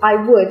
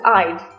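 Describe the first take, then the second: First: Both words are said in full. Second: The words are contracted into one syllable. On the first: "we often shorten I would" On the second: "to I'd"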